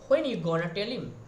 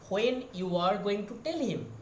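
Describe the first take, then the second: First: The words are reduced and run together. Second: Each word is said fully and separately. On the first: "they are saying that... In that way they are modify their sound" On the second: "We are saying that"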